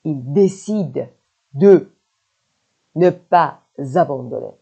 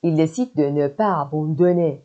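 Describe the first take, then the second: First: Slow chunks, "de" standing alone; broken up for learners. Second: Said in the usual way. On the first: Shown as a demonstration. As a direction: pause either side of "de". Same sentence broken up for learners.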